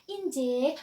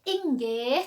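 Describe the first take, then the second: First: The middle consonant is a j sound. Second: The middle consonant is a hard g sound. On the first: This is how the English colonisers said it. The speaker calls it wrong. "orang Inggris kan bilangnya "Injih."" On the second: This is the original form of the word. The speaker calls it right. "sebenarnya kan "Inggih,""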